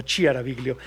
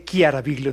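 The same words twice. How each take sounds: First: Chiaraviglio with a soft CH, as in "chico"; the mispronounced Chiaraviglio, "cha-cha" CH instead of K; mistaken CH start. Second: Chiaraviglio with a hard K sound, "Kiaraviglio"; hard K start. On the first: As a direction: say Chiaraviglio wrongly, starting "chia". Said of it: "no Chiaraviglio". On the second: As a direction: say Chiaraviglio starting "kia", not "chia". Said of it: "se dice Chiaraviglio". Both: Shown as a demonstration.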